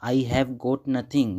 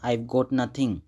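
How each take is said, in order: First: Each word is said separately and fully. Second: The words are run together smoothly and quickly.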